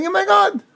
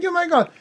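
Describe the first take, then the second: First: Mock declaration. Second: Raised high, a declaring worshipper's quote; mock declaration. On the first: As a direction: announce it to the idol, a touch theatrical. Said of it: "You're saying". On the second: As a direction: proclaim it lightly as if to an idol. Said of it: "You're just saying".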